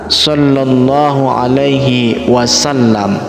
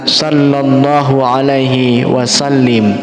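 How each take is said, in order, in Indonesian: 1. Kata terakhir berakhir dengan bunyi 'am'. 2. Kata terakhir berakhir dengan bunyi 'im'. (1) "Jadi yang betul adalah" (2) "Kadang-kadang orang salah membacanya dengan"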